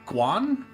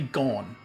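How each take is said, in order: First: The word begins with a gw sound. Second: The word begins with a plain g sound. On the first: The speaker calls it wrong. "I think I was calling the god Guan" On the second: The speaker calls it right. "It's actually Gone"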